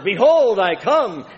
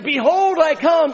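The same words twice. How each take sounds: First: It is said fairly loud, at an early stage. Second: It is said very loud, at the peak.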